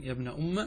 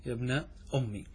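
First: Soft demonstration of أم with a short final a; first reading, fatha. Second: Soft demonstration of أمي ending in ee; second reading, kasra. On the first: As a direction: end أم on a short a, "umma". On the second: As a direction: end أمي on an i sound, "ummi". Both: Shown as a demonstration. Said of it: "قرئ بالقراءتين".

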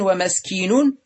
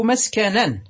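First: ومسكين as wa-maskinun, short i on the kaf; irregular kasra form. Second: مسكنا as maskanan, a on the kaf; fatha form. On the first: Teacher giving the irregular noun, ومسكين said wa-maskinun. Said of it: "شذوذا". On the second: Teacher giving the regular noun, مسكنا said maskanan. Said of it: "بالفتح". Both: Shown as a demonstration.

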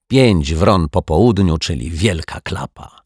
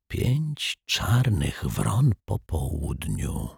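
First: Slow, fully voiced lament; disappointed. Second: Soft, very slow, pensive murmur; hushed murmur. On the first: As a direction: declare failure slowly, with dismay. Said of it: "jęknął z zawodem". (powolne, zawiedzione narzekanie) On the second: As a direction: murmur it slowly, as if musing. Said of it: "szepnął detektyw Pozytywka". (cichy, powolny, zamyślony półszept) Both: A narrator's reading.

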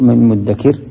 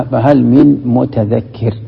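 First: من مدكر with the doubled d run together; teacher showing the merged مدكر; assimilated form. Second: Slow, careful فهل من متذكر with the t sounded; teacher showing the original متذكر; original form, slowly. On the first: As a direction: say مدكر as muddakir, leaning on the doubled d. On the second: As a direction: spell out متذكر as mutadhakkir, letter by letter. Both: Shown as a demonstration. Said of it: "أصلها".

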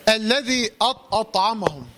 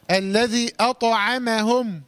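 First: Faulty "أطعمهم", the heavy ط colouring the letters round it; wrong demo of "أطعمهم" with thickened light letters; heavy ta spreading. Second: Slow "أطعمهم", heavy ط alone, light ع and م; light letters kept clean. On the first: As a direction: let the ط darken all of "أطعمهم". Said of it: "حرف الطاء مش عايزينه يبوظ الكلمة". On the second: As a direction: recite "أطعمهم" slowly, keep every letter but ط thin. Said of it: "لابد من تخليص الحروف المرققة". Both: Shown as a demonstration.

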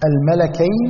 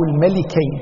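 First: "الملكين" pronounced al-malakayn; fatha on the lam. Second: "الملكين" pronounced al-malikayn; short I sound after the L in "الملكين"; kasra on the lam. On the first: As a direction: open A sound after the L in "الملكين". ("الملكين" بفتح اللام) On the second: ("الملكين" بكسر اللام) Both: Shown as a demonstration. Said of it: "فتح اللام وبكسر".

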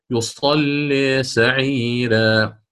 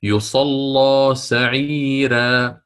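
First: "يصلي" recited slowly, its final vowel leaning slightly toward i; drawn-out "يصلي سعيرا" with a light leaning vowel; slow recitation with the second reading; recited with taqlil. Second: "يصلى" recited slowly with an open final a; drawn-out "يصلى سعيرا" with no leaning of the vowel; slow recitation with the first reading; recited with fatha. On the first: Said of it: "أو". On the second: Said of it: "في قوله تعالى". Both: Shown as a demonstration.

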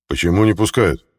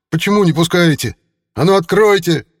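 First: Said in the usual way. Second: Much higher, louder furious yelling; angry crowd roar. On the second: Acted. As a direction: shout it at a locked door. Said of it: "взревели сразу несколько голосов".

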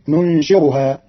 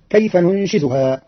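First: ننشرها with a plain r in place of the z, nunshiruha; read with ra. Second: Said in the usual way. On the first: Shown as a demonstration. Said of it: "فتصير". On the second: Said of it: "quoted verse before the variant".

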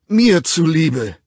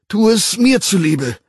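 First: Slow, drawn-out loud plea. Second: High, loud begging, stress on mir; loud plea. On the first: Bernard begging John slowly at full volume. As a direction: drag out the begging. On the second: Bernard begging John again, higher and louder. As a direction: push the plea harder. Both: A narrator's reading. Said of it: "flehte Bernard lautstark".

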